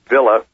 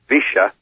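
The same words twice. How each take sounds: First: It is said without the Argentine Spanish pronunciation. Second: It is said with the Argentine Spanish pronunciation.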